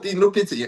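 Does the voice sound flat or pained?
flat. The voice sounds flat and casual. The speaker calls it wrong. "ऐसे थोड़ी होगा"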